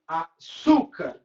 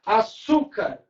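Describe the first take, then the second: First: "Açúcar" drawn out slowly, stressing the "çú"; stressed syllable. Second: Said in the usual way. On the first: Shown as a demonstration. Teacher showing the class the tonic syllable, "Açúcar" slow, stress on "çú". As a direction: break "Açúcar" apart to show the strong "çú". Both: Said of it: "sílaba tônica".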